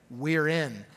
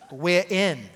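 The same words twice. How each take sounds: First: Said in the usual way. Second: Half-hearted British accent, R dropped; badly faked British "we're in". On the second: Shown as a demonstration. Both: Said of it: "that's a bad accent".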